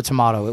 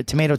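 First: "tomato" with an open AH in the middle; to-MAH-to. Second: "tomato" with a long AY in the middle; to-MAY-to. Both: Shown as a demonstration.

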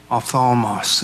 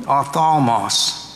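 First: Said in the usual way. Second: Ophthalmos drawn out slowly, syllable by syllable; careful slow ophthalmos; Greek word said slowly. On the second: Shown as a demonstration. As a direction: spell out ophthalmos slowly like a teacher. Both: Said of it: "Envious in the Greek".

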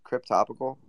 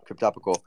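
First: Unsure check on "Cryptopical" with upward tune; questioning rise. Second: Said in the usual way. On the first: Real, not acted. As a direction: say "Cryptopical" as a question, rising at the end. Checks the odd name, then confirms.

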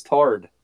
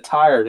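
First: "tard" as one flat syllable, like "tarred"; "tard", rhyming with "hard"; mamaw's pronunciation. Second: Said in the usual way. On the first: Shown as a demonstration. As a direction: say tired as "tard", dropping the glide. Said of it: "it was tard". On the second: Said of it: "instead of tired".

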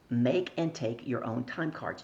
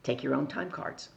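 First: Slow, deliberate stress on "Make and take"; emphatic repeat. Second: Said in the usual way. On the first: Real, not acted. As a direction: drive the lesson home, stretching "Make and take".

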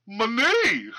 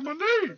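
First: Imitating a goofy southern twang, pitched up; mock drawled, high and laughing; weird southern twang. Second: Weird southern twang. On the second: Retold or imitated. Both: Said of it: "With, like, this weird accent".

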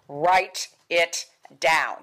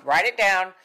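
First: Write it down said slowly, each word weighted; slow stressed command. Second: Write it down said quick and louder; louder repeat. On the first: Teacher telling the class, slow and weighty. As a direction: drag out Write it down to make it stick. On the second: Teacher repeating the instruction, louder. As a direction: punch Write it down as a reminder. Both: Shown as a demonstration.

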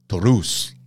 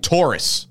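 First: Taurus said the Spanish way with a rolled r, TOH-roos. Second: Said in the usual way. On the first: Shown as a demonstration. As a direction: say Taurus with a trilled Spanish r and an oo sound. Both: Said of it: "I had to say it like that".

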